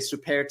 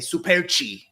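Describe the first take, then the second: First: The name is said the English way. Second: The name is said the Brazilian Portuguese way.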